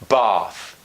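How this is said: The vowel is a long back ah sound. "in British being more the ah or the ah as of bath"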